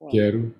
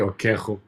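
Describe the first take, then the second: First: The middle consonant is a plain R sound. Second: The middle consonant is a throaty ch sound. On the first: The speaker calls it right. "it still has that R sound" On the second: The speaker calls it wrong. "You wouldn't say"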